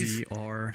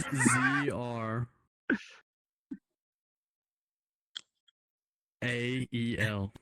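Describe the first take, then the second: First: The letters are spelled at a normal pace. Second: The letters are spelled out slowly.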